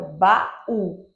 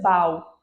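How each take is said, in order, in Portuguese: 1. As duas vogais se separam em duas sílabas. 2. As duas vogais se juntam em uma única sílaba. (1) "tem uma pausa entre o A e o U" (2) "para ser um único som teria que ser bau"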